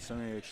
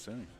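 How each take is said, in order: First: The name ends with an audible h sound. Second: The name ends without any h sound. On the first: The speaker calls it wrong. "I've been pronouncing Semi H this whole time" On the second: The speaker calls it right. "I guess it's just Semi"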